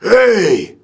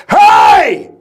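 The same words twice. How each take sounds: First: Thinner mock yell without the gut behind it; a half-hearted copy of the shout; weak imitation shout. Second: Huge bellowed shout from the gut; proper diaphragm shout. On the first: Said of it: "He's like". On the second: Shown as a demonstration. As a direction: bark it like a drill instructor from the diaphragm. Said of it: "I'm trying to show him how to do it".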